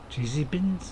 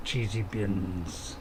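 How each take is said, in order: First: Said in the usual way. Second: Deep, very slow and drawn-out cheesy bins; mock-grand low drawl, stretching each word; silly put-on voice. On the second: Gamer boasting to stream viewers, deep slow silly voice.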